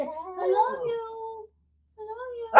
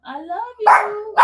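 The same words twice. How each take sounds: First: Soft, very slow, high coo; hushed, drawn-out high pet voice; said lower. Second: High, slow, louder model phrase; high drawn-out pet prompt. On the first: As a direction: coo it quietly for the dog to copy. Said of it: "say it lower". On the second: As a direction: call it out slowly for the dog to copy. Prompting dog to repeat it. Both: Shown as a demonstration.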